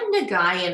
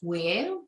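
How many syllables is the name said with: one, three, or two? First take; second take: three; one. First: The name is said with three syllables. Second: The name is said as one syllable. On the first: This is how other people usually say it. "I get Nagayan a lot" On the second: This is the proper pronunciation. "so it's Wing"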